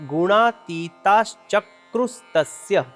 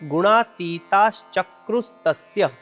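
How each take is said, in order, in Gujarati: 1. શબ્દો સંધિથી જોડાઈને એક શબ્દ બને છે. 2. શબ્દો સંધિથી જોડાઈને એક શબ્દ બને છે.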